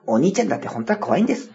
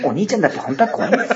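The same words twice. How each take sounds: First: Narration impression. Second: Quick, lightly voiced show narrator; a hint of the variety show narrator; narration impression. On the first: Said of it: "ナレーションの真似ね". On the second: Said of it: "生まれて初めてやりました、このモノマネ".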